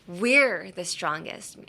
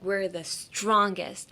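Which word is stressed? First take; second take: We're; strongest. First: The stress is on "we're". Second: The stress is on "strongest".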